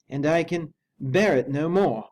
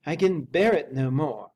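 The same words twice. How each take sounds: First: Slow, loud, despairing servant; high, slow, loud and desperate; desperate butler. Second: Repeated despair. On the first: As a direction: drag out each word as if at the end of his rope. Poole's anxious voice. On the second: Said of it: "he repeated". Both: A narrator's reading.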